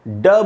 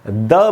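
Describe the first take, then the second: First: The word is said with an English-style d sound. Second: The word is said with a French-style d sound. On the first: "ड बोलेंगे तो इंग्लिश का उच्चारण होगा" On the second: "द बोलेंगे तो pure French का उच्चारण होगा"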